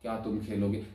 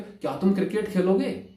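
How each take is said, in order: First: It is said quietly and flatly, without feeling. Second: It is said with lively, questioning expression.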